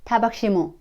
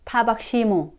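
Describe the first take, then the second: No difference in how they are said.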